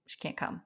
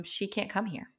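First: Breathy whisper of "she can't come". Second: Said in the usual way. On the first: Retold or imitated. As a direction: whisper the refusal as if still stunned. Repeating the school's refusal.

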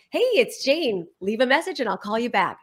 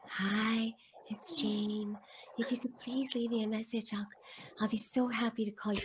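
First: Lightly brighter, confident voicemail greeting; upbeat outgoing message. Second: Soft, timid, apologetic message voice; apologetic voicemail. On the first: Shown as a demonstration. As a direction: say it like you're glad they called. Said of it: "So we practiced". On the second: Retold or imitated. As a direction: read the greeting as if sorry for existing. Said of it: "You sound like you're apologizing for living".

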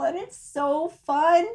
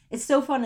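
First: Excited. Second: Said in the usual way. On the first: Real, not acted. Excited about puppy sitting.

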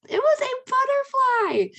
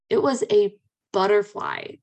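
First: Much higher, slow and delighted; squealed reveal. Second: Said in the usual way. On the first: Shown as a demonstration. Telling listeners the bug was really a butterfly: high delighted squeal.

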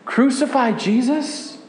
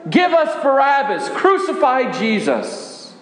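First: Higher and hushed, a horrified question; stunned disbelief. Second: A touch higher, voicing the angry mob; mock crowd shout. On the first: Acted. Disciple echoing the crowd's cry in horror, hushed disbelief. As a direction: repeat the words as if you can't believe them. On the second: Disciple retelling the crowd demanding Barabbas, mild mock shout. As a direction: echo the crowd's cry, not full volume. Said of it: "as the crowd shouted".

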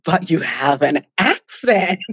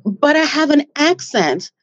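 First: Slow, delighted echo breaking into a laugh; playful slow-motion reply; admiring retort. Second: Higher-pitched mock objection; imitating a self-doubting client; worried retold complaint. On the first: Retold or imitated. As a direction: throw it back slowly, savouring the word accent. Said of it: "And I'm like". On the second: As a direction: lightly voice someone fretting, pitched up. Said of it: "And they're like".

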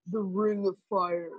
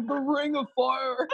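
First: A lightly voiced demonic man, slowed down; hint of an ancient shamanic voice announcing the head; possessed man's voice. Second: Mock possessed voice breaking into laughter; half-hearted demonic voice through giggles; laughing demon voice. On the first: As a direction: intone it like a spirit speaking through you, a touch low and slow. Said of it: "like, a man's demonic voice". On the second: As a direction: redo the spirit voice, slow, while cracking up.

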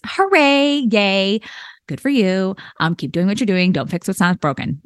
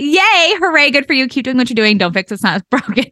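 First: Dry congratulations that sound mildly sarcastic; unintentionally sarcastic praise; a little sarcastic. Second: Higher, genuinely excited congratulations; really mean it this time, cheer them on; earnest, higher hooray, no sarcasm; sincere cheer. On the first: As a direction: cheer them on but it comes out dry. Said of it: "it did sound a little sarcastic". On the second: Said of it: "I'm not saying that in a sarcastic way". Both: Real, not acted.

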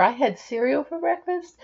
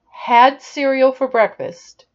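First: "I had cereal for breakfast" ending on a rising tune, "breakfast" lifted like a question; up talk. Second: Said in the usual way. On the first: Shown as a demonstration. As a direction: make the statement climb at the end on "breakfast". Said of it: "See how the voice goes up?". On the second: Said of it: "And by up talk, I mean this".

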